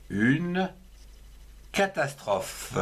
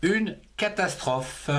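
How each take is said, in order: First: Une and catastrophe split by a pause; dictée lente avec une pause après Une; slow, careful dictation. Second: Said in the usual way. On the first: Shown as a demonstration. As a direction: pause after Une, then say catastrophe clearly for the class. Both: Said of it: "comme le mot".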